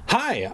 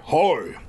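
First: Said in the usual way. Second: Muffled by thick folds of flab. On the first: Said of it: "Oh, sorry". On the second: Shown as a demonstration. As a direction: hi muffled like through a wall. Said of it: "That was the voice I was doing".

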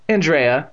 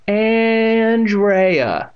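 First: Said in the usual way. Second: ANDREA stretched long, high and loud; mock cultured voice. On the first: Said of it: "she said". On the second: A narrator's reading. Girl mocks her hated name, mock cultured ANDREA. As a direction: draw out ANDREA with snooty grandeur. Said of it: "stretched her name out in a deep, cultured voice".

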